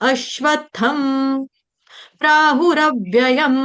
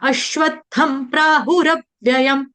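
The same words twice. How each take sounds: First: The final m sounds are drawn out long. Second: The final m sounds are cut short. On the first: The speaker calls it wrong. "ऐसे ऐसे नहीं गाना है" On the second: The speaker calls it right. "इतना बोलने से म आपका हलंता आ जाएगा"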